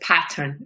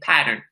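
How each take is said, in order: First: The middle consonant is a crisp, clear T. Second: The middle consonant is a soft D sound. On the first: This is how another person says it. "Rose enunciates pattern. She says pattern" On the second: This is how the speaker normally says it. "I say pattern. It's a D"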